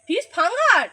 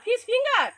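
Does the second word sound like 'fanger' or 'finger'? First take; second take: fanger; finger. First: The second word has an 'a' vowel, 'fanger'. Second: The second word has an 'i' vowel, 'finger'. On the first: The speaker calls it wrong. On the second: The speaker calls it right.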